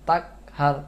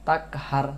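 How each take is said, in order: Both takes have the same delivery.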